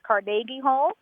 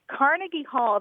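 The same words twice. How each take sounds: First: The stress is on the second syllable of Carnegie. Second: The stress is on the first syllable of Carnegie. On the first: This is the local Scottish pronunciation. "should actually be pronounced Carnegie Hall" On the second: This is the New York pronunciation. "the Carnegie Hall that exists in New York"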